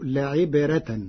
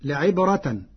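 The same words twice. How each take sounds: First: لعبرة with a thin, light ra. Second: Said in the usual way. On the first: Shown as a demonstration. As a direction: say لعبرة with a softened ra, slowly. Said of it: "بترقيق الراء". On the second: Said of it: "فتصير لعبرة".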